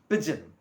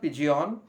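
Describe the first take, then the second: First: The word is said not rhyming with legion. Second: The word is said to rhyme with legion. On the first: The speaker calls it right. "It is pigeon" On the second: The speaker calls it wrong. "it is not pigeon like a legion"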